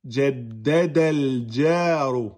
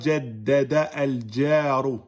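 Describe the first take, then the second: First: The words run together straight into l. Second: The a of al is sounded separately. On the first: The speaker calls it right. "On fait la liaison" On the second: The speaker calls it wrong. "On dit pas jaddada al-jaru. Non"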